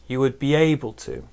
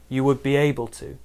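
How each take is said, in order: The two takes are said the same way.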